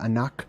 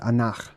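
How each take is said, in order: First: The name ends in a plain hard k sound. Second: The name ends in a rough guttural sound. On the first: "It's kind of like Anak or Anak" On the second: "but it's more of a guttural. It's Anach"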